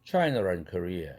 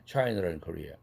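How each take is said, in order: Both takes have the same delivery.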